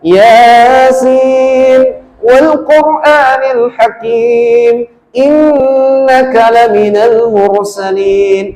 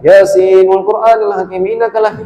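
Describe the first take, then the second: First: It is recited at a moderate, unhurried pace. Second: It is recited very quickly and rushed. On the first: The speaker calls it right. "ini masih masih sedang" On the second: The speaker calls it wrong. "Ini enggak niat baca ini"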